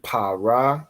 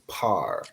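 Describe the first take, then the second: First: It is said as two syllables, ending in a vowel. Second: It is said as one syllable, with no final vowel. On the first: The syllables are not joined together. The speaker calls it wrong. "instead of saying pa ra" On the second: The syllables are joined together. The speaker calls it right. "you would say par"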